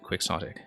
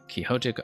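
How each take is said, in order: First: It is said like ordinary English spelling. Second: It is said like the Spanish name. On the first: It follows a long-standing English usage. "in English, for centuries, it has also been alternatively pronounced as quixotic" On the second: It follows the original Spanish name. "Quixotic obviously comes from Don Quixote de la Mancha"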